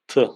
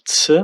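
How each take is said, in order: First: The T is released without a puff of air. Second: The T is released with a puff of air. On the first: The speaker calls it right. "so it's pronounced like T" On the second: The speaker calls it wrong. "not like the English one, where it would sound like T or T with aspiration"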